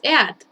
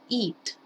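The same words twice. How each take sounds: First: The vowel is short and clipped. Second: The vowel is long and drawn out. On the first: The speaker calls it wrong. "No es eat" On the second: The speaker calls it right. "como si fuera una i muy larga"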